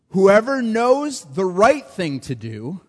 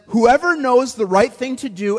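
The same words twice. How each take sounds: First: It is read slowly and deliberately. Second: It is read at a normal pace.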